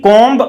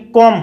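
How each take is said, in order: First: The final b is pronounced. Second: The final b is silent. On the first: The speaker calls it wrong. "कॉम्ब हम बोलते हैं सामान्यतः" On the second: The speaker calls it right. "बी silent रहता है, कॉम होता है"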